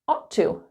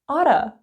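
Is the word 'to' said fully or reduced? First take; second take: full; reduced. First: The word 'to' is said with a full vowel. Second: The word 'to' is reduced to a weak 'a'. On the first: "we just put them together" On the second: "if you want to sound really natural, maybe even a bit lazy, you can say oughta"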